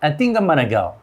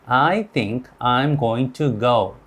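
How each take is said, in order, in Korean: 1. 단어들이 줄어든 형태로 서로 이어져 발음됩니다. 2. 각 단어가 따로, 완전하게 발음됩니다. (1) "이거를 연속으로 하면" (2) "이제 영어를 시작하신 분들은 ... 이렇게 읽습니다"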